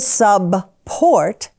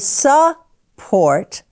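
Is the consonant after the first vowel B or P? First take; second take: B; P. First: The first syllable ends in a voiced B sound. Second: The first syllable ends in a voiceless P sound. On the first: The speaker calls it wrong. "we don't say subport" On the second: The speaker calls it right. "we say support"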